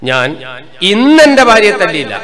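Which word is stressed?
ഇന്ന്. The second word, ഇന്ന്, is stressed. She was beaten on the previous days. "അർത്ഥം എന്നാ ഇന്നലെയും കൊടുത്തിന് മിഞ്ഞാന്നും കൊടുത്തിന്"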